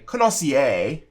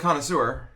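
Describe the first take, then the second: First: The word is pronounced in an odd way. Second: The word is pronounced the usual way. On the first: This is how someone else said it. "I just hear him say" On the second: This is the usual word. "that is a way to say connoisseur"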